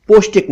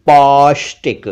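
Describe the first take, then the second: First: पौष्टिक high with rounded "o"; short "oh" in पौष्टिक; mispronounced पौष्टिक. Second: पौष्टिक with open "au"; held "aw" in पौष्टिक; correct पौष्टिक. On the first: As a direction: say पौष्टिक wrongly as "poshtik". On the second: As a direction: say पौष्टिक as "paushtik". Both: Shown as a demonstration. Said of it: "पौष्टिक नहीं".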